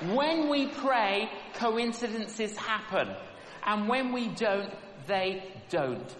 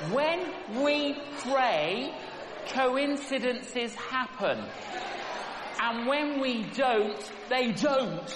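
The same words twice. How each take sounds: First: Quiet closing repeat of the lesson; softer, falling repeat. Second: Slow, weighted words, each phrase set apart; slow sermon emphasis on when; slow emphatic preaching. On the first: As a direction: bring it home gently. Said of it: "the same lesson said again". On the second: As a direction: lay it down slowly for the congregation. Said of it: "preacher repeats the lesson twice". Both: Shown as a demonstration.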